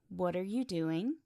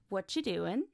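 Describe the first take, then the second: First: Every word is pronounced fully and separately. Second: The words are reduced and run together.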